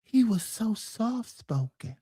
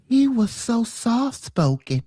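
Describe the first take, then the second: First: Slow, hushed, breathy gentle voice; soft-spoken Michael. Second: Lightly imitating Michael. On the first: Retold or imitated. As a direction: speak softly like Michael. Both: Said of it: "We all love Michael".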